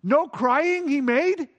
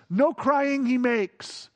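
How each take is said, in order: First: "No crying he made" slow, doubting, "No" stressed; slow incredulous "No crying he made"; mock disbelief. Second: "no crying he makes" drawn out slowly; mock-solemn hymn line, "no" stretched; stress on NO. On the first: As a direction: quote the lyric skeptically, "No" held. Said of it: "Sometimes we write songs that are wrong". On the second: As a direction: lean on "no" in "no crying he makes", slow. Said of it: "Can I just tell you that sometimes we write dumb songs". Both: Shown as a demonstration.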